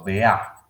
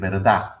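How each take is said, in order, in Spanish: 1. Se omiten la r y la d final. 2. La palabra se dice completa, con la d final. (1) "me paso a vea" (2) "si yo empiezo a decir verdad"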